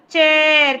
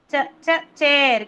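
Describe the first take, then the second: First: Said in the usual way. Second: Two short "Ch" sounds, then the whole word "chair"; first sound isolated. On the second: Shown as a demonstration. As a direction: tap out "Ch, ch" separately before "chair". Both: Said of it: "Can you hear the ch sound?".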